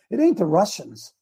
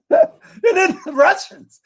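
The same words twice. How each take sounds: First: Said in the usual way. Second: High, slow, laughing it out. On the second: Real, not acted. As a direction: laugh through the words. Laughs then repeats higher.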